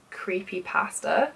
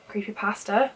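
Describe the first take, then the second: First: Creepypasta in an American accent; slow, imitated American accent on creepypasta. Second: Creepypasta in a British accent, questioning rise; British-accented creepypasta, tried out as a question; own British accent. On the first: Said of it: "so much better in an American accent". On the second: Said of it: "sounds really wrong in my accent". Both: Shown as a demonstration.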